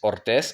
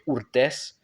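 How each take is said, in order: First: The first vowel is an 'o' sound. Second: The first vowel is an 'oo' sound. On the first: The speaker calls it right. "ça se prononce avec O" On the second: The speaker calls it wrong. "on aurait tendance à dire Urthez"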